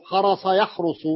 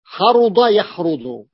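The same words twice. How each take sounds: First: Teacher sets حرص apart, said with a plain s; حرص said with a light, plain s sound, not the heavy ḍād; different word, with sad. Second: Teacher insists on حرض, said with a heavy emphatic ḍād; correct word, with ḍād. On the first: Teacher contrasting a similar word for students, clear pron. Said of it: "حرص غير". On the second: Teacher correcting the word for students, clear pron. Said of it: "لا، حرض يحرض". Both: Shown as a demonstration.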